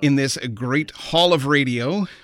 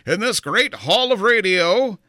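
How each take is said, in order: First: It is said in his normal voice. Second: It is said in an imitated, put-on voice.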